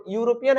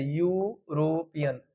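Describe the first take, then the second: First: Said in the usual way. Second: "यूरोपियन" slowly stretched into यू, रो, पियन; softer, slow "यूरोपियन" broken into drawn-out parts; syllable-by-syllable demonstration. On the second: Shown as a demonstration. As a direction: draw out the opening यू of "यूरोपियन", then each part. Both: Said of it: "ऐसे यूरोपियन".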